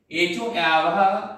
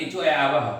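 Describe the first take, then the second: First: एच ओ आवह drawn out, every syllable slow and clear; slow, deliberate teacher's repeat of एच ओ आवह; slow sutra recitation. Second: Said in the usual way. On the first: Shown as a demonstration. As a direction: stretch out एच ओ आवह for the class. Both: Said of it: "सूत्र याद है".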